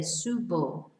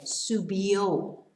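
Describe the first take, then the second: First: Said in the usual way. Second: "subió" said slowly, stressed on the last O; stress on final O. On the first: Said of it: "Sorry, subió". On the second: Shown as a demonstration. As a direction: land on the final O of "subió", drawn out. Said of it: "with an accent on the O".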